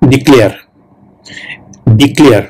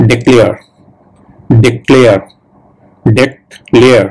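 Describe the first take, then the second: First: ডিক্লেয়ার with a clear "dee" first syllable, Bengali-style; ডিক্লেয়ার said "dee-klear" with a full final r; Bengali-style pronunciation. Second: ডিক্লেয়ার with a short "de" and the r barely sounded; correct English pronunciation. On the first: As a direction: say ডিক্লেয়ার the way Bengali speakers usually do, "dee-klayar". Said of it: "যারা বাঙালি তারা কিন্তু এটাকে উচ্চারণ করে". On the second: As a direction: model ডিক্লেয়ার the English way, "dih-KLAIR", slowing on the last one. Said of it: "actual pronunciation হবে". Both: Shown as a demonstration.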